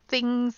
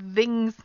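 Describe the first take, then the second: First: The th is unvoiced, with only air. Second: The th is voiced, with throat vibration. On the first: The speaker calls it right. "just the air coming between your top teeth and your tongue" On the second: The speaker calls it wrong. "that's the voice sound"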